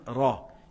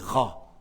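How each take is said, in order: First: The r is made with the tongue tip. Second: The r is made in the throat. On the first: The speaker calls it right. "ils ne savent pas dire Ra" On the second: The speaker calls it wrong. "Toujours c'est Ra. Il roule, comme en français"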